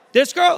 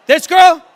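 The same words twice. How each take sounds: First: Said in the usual way. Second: Surprised shout. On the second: Real, not acted. Surprised by the audience's pick.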